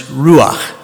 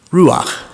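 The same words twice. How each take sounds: First: "ruach" said slowly, ROO-akh, with a throaty final kh; Hebrew word. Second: "Ruach" stated alone, ROO-akh, falling; Hebrew word. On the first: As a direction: pronounce "ruach" the Hebrew way, guttural end. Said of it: "In the Old Testament, in Hebrew". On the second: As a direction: repeat "Ruach" clearly as the Hebrew term. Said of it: "that word is ruach". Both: Shown as a demonstration.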